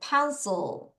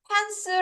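First: The final L is made with tongue touching roof. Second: The final L sound is weak or missing. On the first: The speaker calls it right. "L 발음 때문이야. 혀로 천장 치라 그랬죠?" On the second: The speaker calls it wrong. "요거 pencil 아니고"

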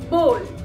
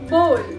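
First: The vowel sounds like oh in go. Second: The same.

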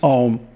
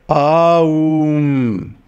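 First: The word is said quickly, its sounds clipped short. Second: Each of its three sounds is held long. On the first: The speaker calls it wrong. "It's not just Aum" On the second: The speaker calls it right. "All three letters, and each of them is long"

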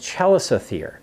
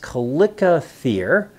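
First: The word begins with a ch sound. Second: The word begins with a hard k sound.

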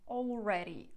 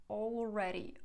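Both takes have the same delivery.

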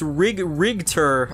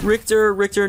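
First: The middle consonant is a G sound. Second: The middle consonant is a K-like sound. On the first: The speaker calls it right. "it's pronounced Rigter, with a G" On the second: The speaker calls it wrong.

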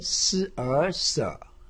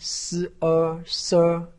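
First: The pitch dips low then rises. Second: The pitch stays high and level. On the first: "三声" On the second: "一声"

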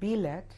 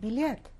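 First: The word is pronounced the Polish way. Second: The word is pronounced the Russian way. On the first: The speaker is marked as an outsider. The speaker calls it wrong. "my mother got beaten up in Russia for saying the word bilet" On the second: The speaker sounds like a local. The speaker calls it right. "instead of bilet"

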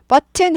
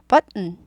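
First: It is said with Korean-style pronunciation. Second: It is said with English-style pronunciation. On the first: The speaker calls it wrong. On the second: The speaker calls it right.

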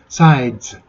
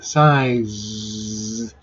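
First: The final sound stops abruptly like a short burst. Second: The final sound is a buzzing hiss that is held. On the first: "ズは一瞬にして終わるんですよ。ズでおしまいです。…それを続けられません" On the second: "こっちは続けられます"

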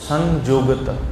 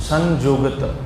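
No difference in how they are said.

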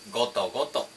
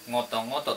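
First: It starts with a hard, plain g sound. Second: It starts with a soft, nasal ng sound. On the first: The speaker calls it right. "これは微濁音にはなりません。" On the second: The speaker calls it wrong. "とかは言いません。"

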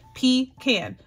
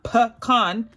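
First: The first syllable sounds like pee. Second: The first syllable sounds like pah. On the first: The speaker calls it right. "The letters form the word pecan" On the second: The speaker calls it wrong. "not pecan. That would be a P-A"

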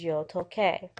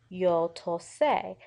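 First: There is a k sound before the final vowel. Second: There is no k sound before the final vowel. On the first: The speaker calls it right. "The original pronunciation has a K sound in it" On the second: The speaker calls it wrong. "you do not want to say yo tosé"

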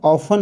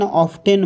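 First: The t sound is left out. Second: The t sound is clearly pronounced. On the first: The speaker calls it right. "इथं जो आहे टी silent आहे" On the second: The speaker calls it wrong. "पण ऑफटेन हा शब्द चुकीचा आहे, उच्चार चुकीचा आहे"

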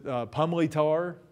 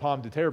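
First: The first part is squeezed to 'pumley'. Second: The last part sounds like 'terre'. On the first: This is how old-time locals say it. "the real locals in the area, pronounced it Pumley Tar" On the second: This is how an outsider says it. "I'd always said Pomme de Terre, but I'm an outsider"

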